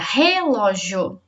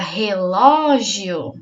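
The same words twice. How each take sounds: First: The stress is on the first syllable. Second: The stress is on the second syllable. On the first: "Se for o re, a sílaba mais forte fica" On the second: "Se for o lo, fica"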